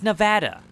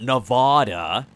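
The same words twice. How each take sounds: First: It is said the local Nevada way. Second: It is said the outsider way.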